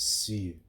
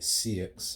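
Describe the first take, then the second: First: The word ends without any x sound. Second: The word ends with an audible x sound. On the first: The speaker calls it right. "when I actually searched up how to pronounce it, it's Sioux" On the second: The speaker calls it wrong. "I used to call it C X"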